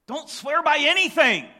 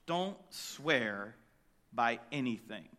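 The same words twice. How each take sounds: First: "Don't swear by anything" high and loud, "anything" punched; booming pulpit command. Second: "Don't swear by anything" dropped low and soft; soft solemn command; quiet. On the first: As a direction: preach it out full force. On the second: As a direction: hush it down, grave and low. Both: Shown as a demonstration. Preacher restates Jesus' command.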